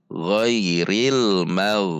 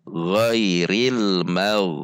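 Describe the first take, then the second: The two takes are said the same way.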